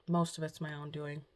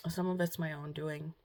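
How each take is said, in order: First: Most leaned on as the correction; self-correcting, weight on Most; stress on most. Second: Said in the usual way. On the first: Real, not acted. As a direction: fix it by hitting the word Most.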